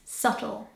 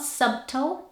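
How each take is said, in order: First: The B in the middle is silent. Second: The B in the middle is sounded. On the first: The speaker calls it right. "it's subtle" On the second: The speaker calls it wrong. "it's not subtle"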